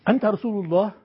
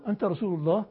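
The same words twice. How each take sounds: First: Said in the usual way. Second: أنت رسول الله asked softly with a rising end; أنت رسول الله with a quiet questioning rise; questioning tune. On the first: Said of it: "إذا وضعت علامة الاستفهام هنا". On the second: Shown as a demonstration. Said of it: "تسأله".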